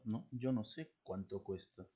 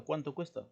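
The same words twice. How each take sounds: First: Quiet remark with no questioning tune on "cuánto cuesta"; indirect question as comment. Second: Higher-pitched question, "cuánto" standing out; direct question. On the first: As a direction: answer softly, letting "cuánto cuesta" drop like a comment. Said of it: "Es un comentario". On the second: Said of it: "Si alguien te pregunta". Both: Shown as a demonstration.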